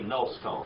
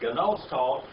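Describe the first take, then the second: First: The word begins with n, g silent. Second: The word begins with a sounded g. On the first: "if we pronounce it right, we would swallow the gum" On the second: "It says gnoston"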